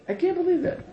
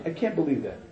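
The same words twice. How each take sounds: First: Incredulous. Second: Said in the usual way. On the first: Shown as a demonstration.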